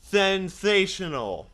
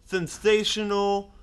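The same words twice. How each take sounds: First: Slow "Sensational", falling at the end; overpronounced. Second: Slow, careful "Sensational"; overpronounced. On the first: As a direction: drag "Sensational" syllable by syllable. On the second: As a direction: say "Sensational" slowly, every syllable. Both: Acted.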